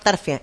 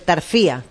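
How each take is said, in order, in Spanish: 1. La tónica no cae en la 'i'. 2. La tónica cae en la 'i'. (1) "yo decía vamos a Tarfia" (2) "con acento"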